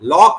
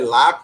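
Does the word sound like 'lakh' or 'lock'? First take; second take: lock; lakh. First: The vowel is a rounded 'o' sound. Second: The vowel is an open unrounded 'aa' sound. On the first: "लॉक नहीं बोलेंगे" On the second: "लाख बोलेंगे"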